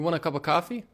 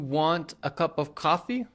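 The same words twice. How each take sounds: First: Want a is reduced to wanna. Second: Want a is said as two full words. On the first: The speaker calls it right. "We'll say" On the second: The speaker calls it wrong. "We don't normally say"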